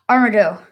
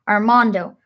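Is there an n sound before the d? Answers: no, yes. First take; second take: no; yes. First: The name has no n sound before the d. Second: The name has an n sound before the d. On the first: The speaker calls it right. "It's Armado" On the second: The speaker calls it wrong. "I've been saying it wrong this whole time"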